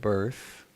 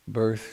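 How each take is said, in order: First: The words are said slowly and deliberately. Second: The words are rattled off quickly. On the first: Each item is to be reflected on. "but if you think of it" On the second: It is a familiar list recited by habit. "I say it really quickly"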